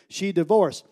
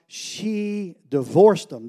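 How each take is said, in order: First: Said in the usual way. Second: Slow, drawn-out mock objection; slowly voiced skeptic insisting she divorced them; skeptic's objection. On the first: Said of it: "That's what she did". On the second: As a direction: lean on divorced like a doubting listener. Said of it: "And you go, "Yeah, but Josh".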